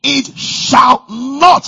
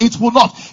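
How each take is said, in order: First: "it shall not" very slow, every word weighted; emphasis on NOT. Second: Said in the usual way. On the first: Shown as a demonstration. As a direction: lean hard on "not", slowly. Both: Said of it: "for the emphasis".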